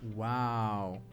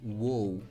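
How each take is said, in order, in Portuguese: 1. A vogal é um som de 'ah' aberto. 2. A vogal não é um som de 'ah' aberto. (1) "tem o mesmo som de A aberto" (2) "eu já vi alguns alunos lerem essa palavrinha"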